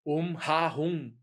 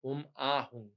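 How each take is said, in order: First: "Om Ha Hum" slowly, with an aspirated h before the a; wrong pronunciation. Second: "Om Ah Hum" with a clean open "Ah", no h; correct pronunciation. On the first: Teacher showing students the common Brazilian mistake, mispronounced. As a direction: mimic the mistaken "Ha", drawn out slowly. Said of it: "Isso não pode". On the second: Teacher correcting students' mantra, plain correct pronunciation. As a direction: say the middle syllable as a pure vowel. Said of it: "É A". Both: Shown as a demonstration.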